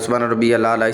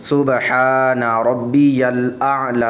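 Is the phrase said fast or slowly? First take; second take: fast; slowly. First: The phrase is said quickly and hurriedly. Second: The phrase is said slowly and carefully. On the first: The speaker calls it wrong. "इस तरह जल्दी जल्दी पढ़ते जाते हैं, जो कि सही तरीका नहीं है" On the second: The speaker calls it right. "सही तरीका"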